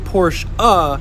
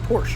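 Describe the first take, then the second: First: The word ends with an extra 'uh' syllable. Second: The word ends without an extra syllable. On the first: The brand sounds pretentious. The speaker calls it wrong. "when you say Porsche uh, you sound like a douche" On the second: The brand gets due respect. The speaker calls it right. "so I just say Porsche"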